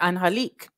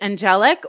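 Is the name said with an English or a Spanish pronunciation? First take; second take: Spanish; English. First: It is said with a Spanish pronunciation. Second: It is said with an English pronunciation. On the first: "or like Spanish" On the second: "Would it be pronounced like English"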